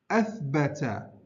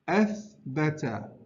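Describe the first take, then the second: No difference in how they are said.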